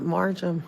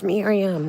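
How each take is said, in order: First: "Marjam" with Mar- and a j sound; mispronounced name. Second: "Miriam" said as the correct form, ending in -iam; correct name pronunciation. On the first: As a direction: say "Marjam" as the mistaken form of the name. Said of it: "it's Miriam". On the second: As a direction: pronounce "Miriam" with a clear -iam, no j. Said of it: "not Marjam". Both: Shown as a demonstration.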